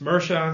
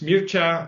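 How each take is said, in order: First: The name is said with an American pronunciation. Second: The name is said with a Romanian pronunciation. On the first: "in the U S" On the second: "In Romanian"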